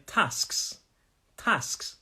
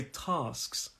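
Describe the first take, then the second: First: TASKS with a short flat "a" as in cat; northern English pronunciation. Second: TASKS with a long back "ah"; southern English pronunciation. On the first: Teacher shows how the north says it, short-"a" TASKS. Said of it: "some people in the north say". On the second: Teacher shows own southern accent, TASKS with long "ah". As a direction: say TASKS the southern way, drawn-out "tahsks". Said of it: "my pronunciation is quite southern in this one". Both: Shown as a demonstration.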